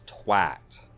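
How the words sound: It uses the British pronunciation of the vowel. The speaker calls it right. "It's twat"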